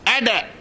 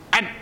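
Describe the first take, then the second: First: The final consonant ends with a short echoing bounce. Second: The final consonant stops abruptly with no bounce. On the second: "Tanpa qalqalah"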